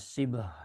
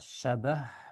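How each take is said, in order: First: The first syllable has the vowel i. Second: The first syllable has the vowel a. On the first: "bisa dibaca sibah" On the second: "ini bisa dibaca syabah"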